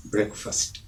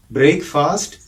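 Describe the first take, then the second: First: "ബ്രേക്ക്ഫാസ്റ്റ്" as a soft, low BREK-fust; short vowels in both halves of "ബ്രേക്ക്ഫാസ്റ്റ്"; correct pronunciation. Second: "ബ്രേക്ക്ഫാസ്റ്റ്" said brayk-FAAST, rising; long vowels in both halves of "ബ്രേക്ക്ഫാസ്റ്റ്"; wrong pronunciation. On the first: Teacher repeating the contrast, the right brek-fust, softly. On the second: Teacher repeating the contrast, the wrong brayk-faast. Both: Shown as a demonstration. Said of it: "ആ വ്യത്യാസം മനസ്സിലായല്ലോ".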